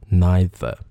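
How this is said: It is said in a British accent. "因为我念的是英音，所以是neither"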